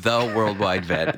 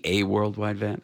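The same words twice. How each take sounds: First: "the" drawn out as "thuh" before Worldwide Vet; stress on THE. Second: "a" said as a full "ay" before Worldwide Vet; stress on A. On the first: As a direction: lean long on the article "the". Host adopts the corrected article. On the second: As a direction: lean on the article "a", pronounced "ay". Host contrasts "a" with "the. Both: Shown as a demonstration.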